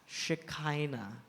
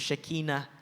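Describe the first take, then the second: First: It is pronounced the way the Filipino name is. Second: It is pronounced the original Hebrew way. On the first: "more popular sa atong pangalan karon sa Pilipinas" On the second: "Ang original niya nga, nga pronunciation is"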